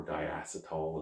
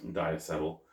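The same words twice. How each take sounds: First: Diacetyl as die-ASS-uh-tall, full "-tall" ending; softer, slower diacetyl, last syllable like "tall"; alternative pronunciation. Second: Diacetyl as die-ASS-uh-tul, short unstressed last syllable; first pronunciation. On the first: Beer reviewer offering another pronunciation, diacetyl ending in "-tall". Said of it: "as some people call it". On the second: Beer reviewer naming an off-flavour, diacetyl ending in a short "-tul". Or diacetyl, as some people call it. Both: Shown as a demonstration.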